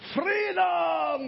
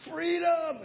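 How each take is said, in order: First: The word is said in a Scottish accent. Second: The word is said in a plain American accent. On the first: The speaker calls it right. "With the nice Scottish accent" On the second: The speaker calls it wrong. "No, you got to say it the right way"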